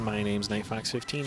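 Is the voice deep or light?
light. The voice is light with no bass. "No bass in the voice"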